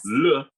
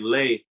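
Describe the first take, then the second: First: The vowel sounds like a short 'uh'. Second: The vowel sounds like 'ay'. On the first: The speaker calls it right. "So we'll say le" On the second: The speaker calls it wrong. "when I say lay, the French people jump all over me"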